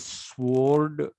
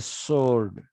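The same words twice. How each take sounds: First: The w sound is pronounced after the s. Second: The w is silent, sounding like sord. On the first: This is how the speaker's own community says it. "We say sword" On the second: This is how the English say it. "They say sword like it is S O R D"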